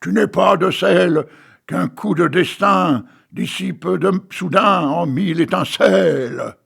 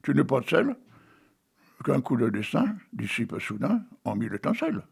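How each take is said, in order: First: It is declaimed in a grand, theatrical way. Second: It is said plainly, without grand declamation.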